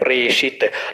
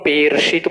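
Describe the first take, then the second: First: The first syllable is pre, with r first. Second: The first syllable is pe, with r after. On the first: The speaker calls it right. "हम प्रे बोल रहे हैं" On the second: The speaker calls it wrong. "अगर पौ में होती है की मात्रा तो हम पेर्षित बोलते हैं"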